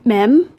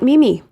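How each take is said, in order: First: It is one syllable with a short e sound. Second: It is two syllables, both with ee sounds. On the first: "It is not m- mem" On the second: "It is not Mimi"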